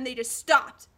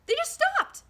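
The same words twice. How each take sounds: First: Said in the usual way. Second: Very high-pitched incredulous repeat; exasperated squeak. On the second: Retold or imitated.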